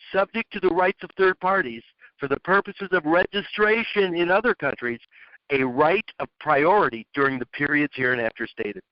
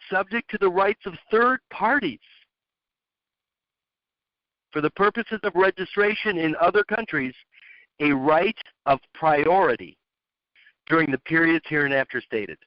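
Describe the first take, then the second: First: It is read faster, with smoother flow. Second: It is read slowly, without much flow.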